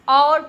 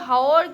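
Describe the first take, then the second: First: The word starts with no h sound. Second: The word starts with an audible h sound. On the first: The speaker calls it right. "उसको और पढ़ते हैं। और क्यों, क्योंकि एच silent होता है।" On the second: The speaker calls it wrong. "हाओर क्यों नहीं पढ़ते"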